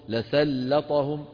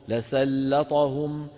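The two takes are said the same way.

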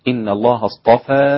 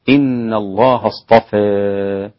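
First: The final vowel is an open a sound. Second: The final vowel is strongly fronted toward e. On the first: "بعدم الإمالة وعدم التقليل بالفتح" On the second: "وكيفية الإمالة هكذا"

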